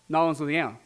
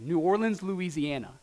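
First: It is said in a local Louisiana accent. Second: It is said in a general, non-local accent.

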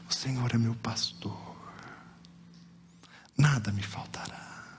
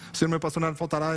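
First: The verse is spoken slowly with pauses. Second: The verse is rushed through quickly. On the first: Each word is savored and taken to heart. The speaker calls it right. "ter falado pausadamente e deixado cada palavra nutrir minha alma" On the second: The words are said without attention to their meaning. The speaker calls it wrong. "falei versículos rapidamente, só para terminar logo a tarefa"

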